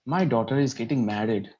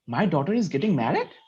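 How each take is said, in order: First: It is said in a sad tone. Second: It is said in a surprised tone.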